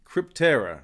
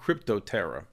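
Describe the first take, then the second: First: The name is said with three syllables. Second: The name is said with four syllables. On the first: The speaker calls it right. "it's actually Cryptera" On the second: The speaker calls it wrong. "not Cryptoterra"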